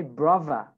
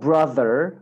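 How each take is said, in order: First: "brother" with V for the TH; TH said softened to V. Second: "brother" slow, tongue between teeth on TH; proper TH. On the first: Teacher shows students the easier "brother", TH as V. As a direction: say "brother" with lip-on-teeth V. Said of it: "sesini F ile değiştirebilirsiniz". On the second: Teacher shows students the TH in "brother", slowly. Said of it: "T H sesini çıkarmak için". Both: Shown as a demonstration.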